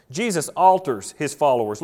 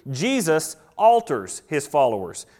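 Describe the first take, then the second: First: Said in the usual way. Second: Slow, each word weighed, ALTERS stressed and falling; slow emphatic point. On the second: Shown as a demonstration. Preacher announcing his second point, slow and weighty. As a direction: land "alters" slowly and heavily. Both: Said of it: "we see number two".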